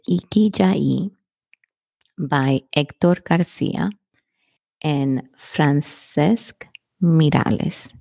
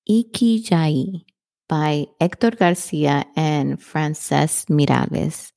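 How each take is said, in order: First: It is said more slowly. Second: It is said at normal speed.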